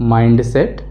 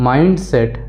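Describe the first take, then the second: Both takes have the same delivery.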